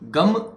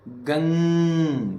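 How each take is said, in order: First: The word ends with a closed lip m sound. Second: The word ends with a nasal hum in the nose. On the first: It has less effect than it should. The speaker calls it wrong. "ग म अधम है गम" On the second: It is the true pronunciation of the mantra. The speaker calls it right. "यही नाक में अटक गई आवाज"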